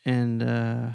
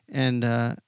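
Both takes have the same delivery.

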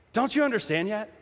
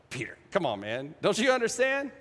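First: Understated irritated question; a touch of anger on the question; mildly angry. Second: Good-humoured exasperation. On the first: Jesus to Peter as people often misread him, mildly angry. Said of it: "we hear that as kind of angry". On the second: Jesus gently chiding Peter for not understanding, fond exasperation. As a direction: chide a friend lightly, coaxing rather than angry. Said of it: "I think it's like". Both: Shown as a demonstration.

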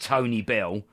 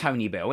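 First: Slow "Tony Bell" as two separate names; rejected pronunciation. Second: "Tony Bell" said as one run-together name; intended pronunciation. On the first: Showing co-hosts the wrong way, slow two-word "Tony Bell". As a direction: draw out "Tony Bell" like a man's full name. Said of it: "It's not pronounced Tony Bell". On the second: Telling co-hosts how it's pronounced, "Tony Bell" as one word. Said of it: "it's pronounced Tony Bell". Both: Shown as a demonstration.

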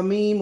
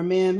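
First: Said in the usual way. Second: "meme" said as "mem"; alternative pronunciation. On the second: Shown as a demonstration. Host unsure how to say the word, alternative pronunciation of "meme" as "mem". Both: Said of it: "however you say it".

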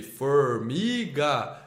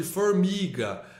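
First: "Formiga" very slowly, split into for-mi-ga; separando sílabas. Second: Said in the usual way. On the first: Retold or imitated. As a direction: stretch out every syllable of "Formiga". ("Formiga" bem devagar, em sílabas: for-mi-ga) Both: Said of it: "Separa a sílaba de formiga".

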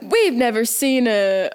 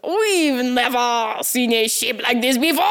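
First: Said in the usual way. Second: Mock French accent. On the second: Shown as a demonstration. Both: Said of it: "let me use the right accent".

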